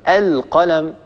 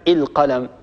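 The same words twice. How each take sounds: First: The word begins with an 'a' vowel. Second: The word begins with an 'i' vowel. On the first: The speaker calls it right. "يقولون القلم" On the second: The speaker calls it wrong. "ولا يقولون القلم"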